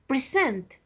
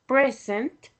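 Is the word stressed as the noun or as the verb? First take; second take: verb; noun. First: The stress falls where the verb has it. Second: The stress falls where the noun has it. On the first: It names an action. "that is the verb" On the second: It names a thing, a gift. "that is the noun present"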